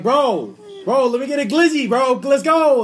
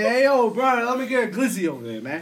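First: Loud, high, impatient street order; pushy New York shout. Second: Loud, higher New York street call; mock New York talk. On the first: Acted. New Yorker showing how locals order, pushy shout. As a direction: holler it way up high, demanding service. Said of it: "how they would say it". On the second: Host asking how New Yorkers order, mock New York holler. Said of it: "So how y'all say".

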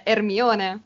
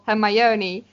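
First: "Hermione" said the Italian way, "er-MYOH-neh"; Italian pronunciation. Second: "Hermione" said the English way, "her-MY-oh-nee"; English pronunciation. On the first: Co-host showing the name used in Italy, Italian pronunciation. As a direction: say "Hermione" with silent H, every vowel Italian. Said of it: "ma da noi è". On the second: Co-host quoting the name her partner used, English pronunciation. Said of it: "Tu prima hai nominato". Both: Shown as a demonstration.

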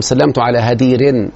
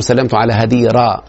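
First: هدير with nunation, slow and deliberate; wrong ending. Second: هديرة ended with a plain open a, no nunation; correct ending. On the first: Teacher to a student named Hadeer, demonstrating the wrong nunation. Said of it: "ما ينفعش أقول". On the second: Teacher to the student, modelling the correct fatha ending. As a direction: stress the final a of هديرة. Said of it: "لازم أقول". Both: Shown as a demonstration.

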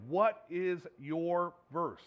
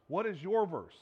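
First: Slow, with "What" leaned on hard; stress on WHAT. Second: "your" stressed, at normal pace. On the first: Preacher slowly challenging his listeners, stress on what. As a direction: drag it out and press on "What". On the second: Preacher turning the question onto each listener, stress on your. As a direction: push the word "your" to make it personal. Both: Acted. Preacher asks congregation twice.

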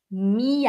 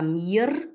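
First: "mir" as "mia", R turned into light A; vocalised R. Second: "mir" with the R pronounced at the end; wrong pronunciation. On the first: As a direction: end "mir" on a light A sound. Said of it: "É um leve som de A". ("mir" com leve som de A no final) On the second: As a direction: say "mir" with a sounded R, as the mistake. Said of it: "A gente não fala mir". ("mir" errado, com R pronunciado no final) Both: Shown as a demonstration.

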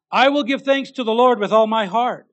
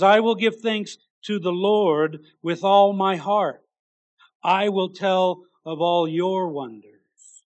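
First: Proclaimed. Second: Slow proclaiming. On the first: Preacher proclaims the verse. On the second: Verse read slowly with weight. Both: Acted.

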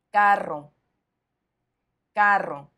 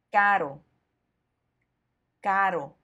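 First: "carro" with a long trilled rr; teacher's model "carro", the middle R strongly trilled; strong double R. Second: "caro" with one quick tapped r, no trill; teacher's model "caro", the middle R softened to a tap; soft single R. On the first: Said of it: "doble R para enfatizar". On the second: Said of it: "el sonido se suaviza totalmente". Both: Shown as a demonstration.

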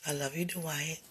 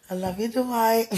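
First: Said in the usual way. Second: Higher and louder, playful delight; excited. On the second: Real, not acted. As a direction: burst out gleefully with his name. Repeats name playfully, much louder.

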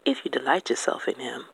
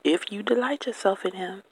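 First: Said in the usual way. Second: "delight" lifted high, pitch staying up through the phrase; stress on DELIGHT. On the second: Real, not acted. Repeating God's condition to listeners, stress on "delight". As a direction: lean on "delight" with a raised, insistent pitch.

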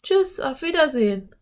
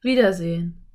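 First: Put-on high girlish goodbye call. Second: Louder echo, not pitched up; canyon echo. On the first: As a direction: call goodbye across the canyon, high-pitched. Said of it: "rief Anne". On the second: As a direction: answer back as the canyon's echo. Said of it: "ertönte plötzlich eine Stimme". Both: A narrator's reading.

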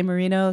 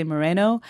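First: "Merino" with an EE in the middle; variant pronunciation. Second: "Moreno" with an AY in the middle; variant pronunciation. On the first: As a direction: say "Merino" as muh-REE-no. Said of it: "some people say Merino". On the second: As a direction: say "Moreno" as muh-RAY-no. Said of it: "some people say Moreno". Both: Shown as a demonstration.

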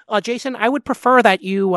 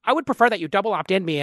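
First: High nasal-free nerdy whine; lightly voiced prim nerd. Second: Prissy nerdy quote; a hint of a fussy nerd. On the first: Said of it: "like, nerd voice". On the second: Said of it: "this is my, like, nerd voice".

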